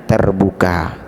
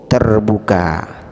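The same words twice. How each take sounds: The two takes are said the same way.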